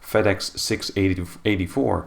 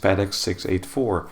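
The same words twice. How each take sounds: First: The numbers are combined into larger grouped numbers. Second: The numbers are read one digit at a time. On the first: This is how it is said in the US. "they tend to kind of combine the numbers" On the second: This is how it is said in Europe. "in Europe, the call sign would be pronounced as"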